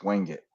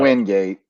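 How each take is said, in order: First: The second syllable sounds like it. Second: The second syllable sounds like gate. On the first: The speaker calls it right. "It's wing it" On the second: The speaker calls it wrong. "it's not"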